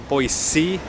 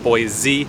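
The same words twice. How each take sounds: First: The middle consonant is an S sound. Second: The middle consonant is a Z sound. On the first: The speaker is a local from the area. The speaker calls it right. "Boise with the S sound" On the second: The speaker is not from the area. The speaker calls it wrong. "instead of Boise with the Z sound"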